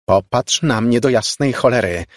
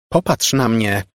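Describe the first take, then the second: First: Louder, higher, exasperated command; angry shout. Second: Raised, higher command; shouting. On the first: Margo wrestles with the girl's averted face, angry shouting. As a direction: repeat the order in fury. Furious repeat of shouted order. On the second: Margo grabs the girl and demands a look, shouting. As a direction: cry out an order. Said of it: "krzyknęła". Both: A narrator's reading.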